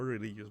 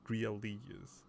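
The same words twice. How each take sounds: First: Said in the usual way. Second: "religious" with its first syllable stretched out; drawn-out "religious". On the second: Shown as a demonstration. Player correcting a word read off the screen, drawn-out "religious". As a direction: stretch the opening of "religious" into "real". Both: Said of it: "Not religious, but religious".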